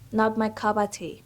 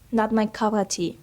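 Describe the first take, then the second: No difference in how they are said.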